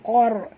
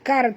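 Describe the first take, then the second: First: The first consonant is deep and heavy. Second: The first consonant is light and forward. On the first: The speaker calls it right. "Qar tebal" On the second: The speaker calls it wrong. "Bukan kar"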